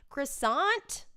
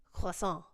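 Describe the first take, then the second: First: "Croissant" with English r and sounded final t, rising; higher, questioning "Croissant" with a hard t; anglicized pronunciation. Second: "Croissant" with a French ending, final t silent; French pronunciation. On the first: Joking about knowing some French, "Croissant" said the English way. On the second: Showing off some French, "Croissant" said the French way. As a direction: say "Croissant" French-style, nasal last vowel, no t. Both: Shown as a demonstration. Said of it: "I know some French".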